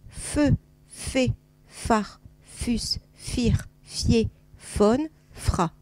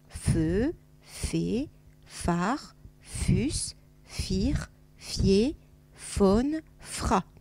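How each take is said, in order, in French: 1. Les syllabes sont lues un peu plus vite. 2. Les syllabes sont lues lentement et calmement. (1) "Un tout petit peu plus vite" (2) "Tranquille d'abord"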